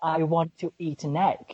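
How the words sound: It is said in a British accent, clear T. "Brits are like pronounce T really clear. So I I usually say like"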